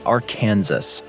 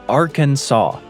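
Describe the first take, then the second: First: The ending sounds like 'Kansas'. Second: The ending does not sound like 'Kansas'. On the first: The speaker calls it wrong. "not Arkansas. The idea was to avoid any confusion with Kansas" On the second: The speaker calls it right. "It's Arkansas"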